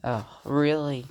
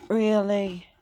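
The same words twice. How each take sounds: First: Said in the usual way. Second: Louder and higher, incredulous; Really? pushed up in exasperation; loud disbelieving really. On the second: Real, not acted. Dirty speaker, repeated in disbelief.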